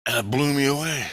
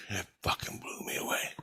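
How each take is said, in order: First: Said in the usual way. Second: Soft, breathless hush; hushed, unvoiced disbelief; awed whisper. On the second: Real, not acted. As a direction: whisper it, still stunned. Repeats line, dropping to whisper.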